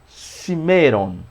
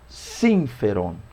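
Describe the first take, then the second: First: The middle of the word has no f sound. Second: The middle of the word has an f sound. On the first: The speaker calls it wrong. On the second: The speaker calls it right.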